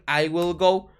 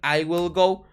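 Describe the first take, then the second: First: The word will is said fully and separately. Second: The same.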